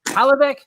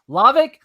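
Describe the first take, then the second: First: The name starts with a pronounced H sound. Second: The name starts without an H sound. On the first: The speaker calls it wrong. "butcher that man" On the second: The speaker calls it right. "The H is silent"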